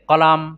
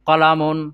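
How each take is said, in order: First: The word ends on a bare final consonant. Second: The word ends with an added '-un' syllable. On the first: The speaker calls it right. "সাকিন দিয়ে দিয়ে পড়বে" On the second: The speaker calls it wrong. "কলামুন পেজ দিয়ে দিয়ে পড়ি"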